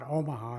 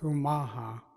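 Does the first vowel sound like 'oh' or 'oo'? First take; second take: oh; oo. First: The first vowel sounds like 'oh'. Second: The first vowel sounds like 'oo'. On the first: The speaker calls it wrong. "It's not Omaha" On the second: The speaker calls it right. "real true pronunciation is Umaha"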